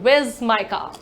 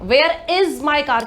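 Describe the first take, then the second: First: Where is is contracted to one syllable. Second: Where is is said as two full words. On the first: "you'll be using this word" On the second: "की जगह"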